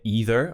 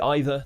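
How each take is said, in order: First: It is said in an American accent. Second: It is said in an RP accent. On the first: "in an American accent, you're going to hear either" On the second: "but we say either"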